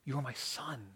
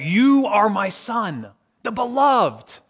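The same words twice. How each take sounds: First: Very soft closing echo; hushed, tender. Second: Slow, high proclamation from heaven; crying out. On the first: Voice from heaven to the beloved child, hushed. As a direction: say it gently, barely voiced. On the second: Voice from heaven to Jesus at his baptism, crying out. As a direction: cry it out, stretching each word. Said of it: "cried out to him". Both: Acted.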